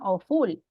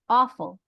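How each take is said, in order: First: The stress is on the second syllable. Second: The stress is on the first syllable. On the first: The speaker calls it wrong. "Porque no decimos awful" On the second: The speaker calls it right. "on the first one"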